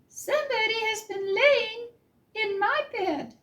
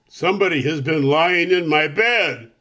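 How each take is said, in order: First: A middle-sized Mama Bear voice. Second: A big, rough, gruff Papa Bear voice.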